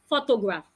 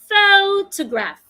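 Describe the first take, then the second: First: All three syllables get about equal stress. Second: The stress falls clearly on the first syllable. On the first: The speaker calls it wrong. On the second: The speaker calls it right. "I must stress the first syllable"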